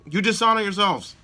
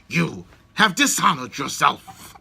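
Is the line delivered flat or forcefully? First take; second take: flat; forcefully. First: It is said flatly, with no inflection. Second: It is said forcefully, with strong inflection. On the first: The speaker calls it wrong. "the line readings are just so flat" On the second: The speaker calls it right. "put something into it"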